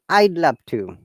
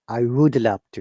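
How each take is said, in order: First: 'Would' is contracted to a short 'd' sound. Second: 'Would' is said in full as a word.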